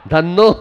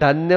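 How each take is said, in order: First: The word is said as 'dhanno' with a double n. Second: The word is said as 'dhanya' with an n-y cluster. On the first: The speaker calls it wrong. "धन्नो नहीं" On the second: The speaker calls it right. "धन्य हो महाराज आप"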